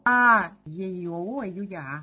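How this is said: The first vowel is loud, the rest quiet. "заглавную букву громко, а остальные потихоньку"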